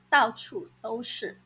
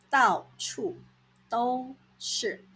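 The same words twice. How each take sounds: First: Said in the usual way. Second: 到处 and 都是 said apart with a clear gap; split into chunks. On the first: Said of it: "到处 都是". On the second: Shown as a demonstration. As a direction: say 到处 then pause, then 都是.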